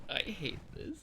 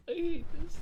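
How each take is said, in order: First: Said in the usual way. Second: Squealed high and loud; embarrassed yelp. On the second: Real, not acted. Embarrassed at her own voice test, squealing loudly. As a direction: cry it out, mortified. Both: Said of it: "embarrassed at her own reading".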